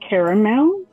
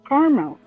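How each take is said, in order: First: It is said with a Southern US pronunciation. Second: It is said with a Northern US pronunciation. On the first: "like in the South" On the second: "like in the North"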